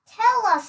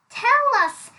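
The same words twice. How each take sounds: First: Smirking pig. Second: High, louder mock demand; teasing elephant. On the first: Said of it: "trying to keep a straight face". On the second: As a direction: tease him with the question. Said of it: "said the clever elephant". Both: A narrator's reading.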